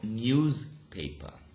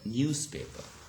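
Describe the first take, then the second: First: The middle consonant is a voiced z sound. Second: The middle consonant is a voiceless s sound. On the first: The speaker calls it wrong. "not newspaper" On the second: The speaker calls it right. "It becomes s"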